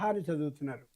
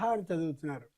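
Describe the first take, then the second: No difference in how they are said.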